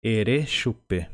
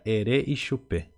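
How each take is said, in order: First: "Ere chupe" run straight on, no I before chupe; colloquial short form. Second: "ere Ixupe" with the I sounded before xupe; correct full form. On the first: Teacher shows learners the everyday spoken form, colloquial "Ere chupe". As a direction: say "Ere chupe" without the linking I. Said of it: "no modo mais coloquial possível". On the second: Teacher corrects the colloquial phrase for learners, full-form "ere Ixupe". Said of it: "o correto mesmo seria". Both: Shown as a demonstration.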